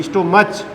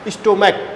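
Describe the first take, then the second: First: स्टोमच with a ch sound at the end, the wrong way; wrong pronunciation. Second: स्टोमक ending in a hard k sound, ch silent; right pronunciation. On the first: Teacher showing students the mistaken स्टोमच with ch. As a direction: say स्टोमच ending in ch like church. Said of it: "इसको स्टोमच नहीं बोला जाता". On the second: Teacher giving students the correct स्टोमक with k. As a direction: say स्टोमक with a clear k at the end. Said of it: "स्टोमक बोला जाता है". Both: Shown as a demonstration.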